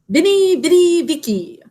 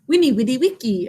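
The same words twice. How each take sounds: First: It is said with a common English pronunciation. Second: It is said with a classical Latin pronunciation.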